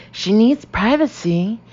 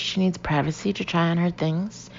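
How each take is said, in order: First: Higher, louder and slower, each word pressed; insistent. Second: Said in the usual way. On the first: Acted. Jody insisting to the shop woman, louder and insistent. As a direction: insist over her, no arguing. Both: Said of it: "insists the girl".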